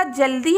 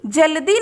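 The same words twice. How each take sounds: First: जल्दी run together as "jal-dee"; half l. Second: जल्दी split as "ja-la-dee"; full la. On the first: Teacher correcting the misspelt word, जल्दी as "jal-dee". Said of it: "यहाँ पर होगा आधा ला". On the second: Teacher showing pupils the misspelt word, जल्दी as "ja-la-dee". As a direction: say जल्दी with a full ल, not joined to दी. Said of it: "जल्दी नहीं होता". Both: Shown as a demonstration.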